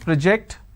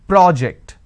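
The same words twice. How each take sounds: First: The stress is on the second syllable. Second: The stress is on the first syllable. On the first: It is a verb. "I need to stress on the second syllable" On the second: It is a noun. "when I'm stressing on the first syllable, it becomes a noun"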